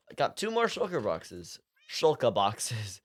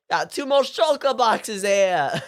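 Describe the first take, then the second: First: Said in the usual way. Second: Slow, loud, high attempt at a New York accent; hammed-up New Yorker accent, drawn out; horrible New Yorker accent. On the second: Shown as a demonstration. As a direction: belt it out as a bad New Yorker. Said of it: "that was kinda better, but still horrible".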